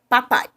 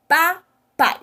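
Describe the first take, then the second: First: Said in the usual way. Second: "Papai" slowly split, pa... pai; syllable by syllable. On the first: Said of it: "Eu tenho aqui o nome papai". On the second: Shown as a demonstration. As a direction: model "Papai" in two separate, higher beats for pupils to copy. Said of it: "Pronuncia a palavra agora comigo".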